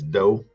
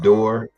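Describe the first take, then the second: First: It is pronounced the old local way, do. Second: It is pronounced in the standard way, door. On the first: This is how it was said back then. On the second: This is the standard form.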